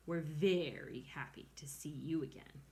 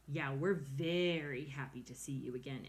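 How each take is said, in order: First: Dripping sarcasm. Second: Dopey echo. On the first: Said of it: "Her voice dripped with sarcasm". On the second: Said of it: "echoed the brother bear". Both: A narrator's reading.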